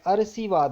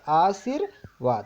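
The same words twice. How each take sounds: First: The r sound comes after the v sound. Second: The r sound comes before the v sound. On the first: The speaker calls it wrong. "ये गलत हो गया" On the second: The speaker calls it right. "ऊपर रॉ चढ़ता है तो वो पहले बोला जाता है ... ये सही है"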